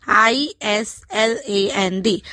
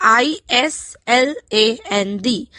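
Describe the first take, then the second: The two takes are said the same way.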